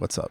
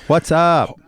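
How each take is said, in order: First: It is said in a subtle, low-key way. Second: It is said in an excitable, energetic way.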